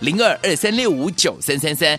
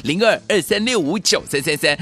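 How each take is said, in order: No difference in how they are said.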